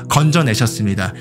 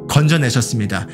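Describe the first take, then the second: The two takes are said the same way.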